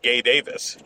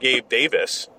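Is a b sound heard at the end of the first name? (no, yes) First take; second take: no; yes. First: The first name is said without the b sound. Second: The first name ends with a b sound.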